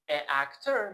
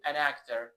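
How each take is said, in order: First: "a actor" with a break between the two vowels; vowel clash, no n. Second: "an actor" run together as "a-nactor"; linked with n. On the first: Teacher shows what not to say, "a actor" with separated vowels. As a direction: keep "a" apart from "actor", no linking sound. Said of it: "به جای اینکه بگیم". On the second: Teacher shows the easy form, "an actor" linked by n. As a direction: glide from "an" into "actor" through the n. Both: Shown as a demonstration.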